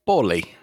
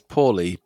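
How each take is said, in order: First: The name is said in a gangster accent. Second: The name is said in a plain accent.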